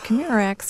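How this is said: The voice sounds friendly and relaxed. The caller is still patient. "We started out friendly"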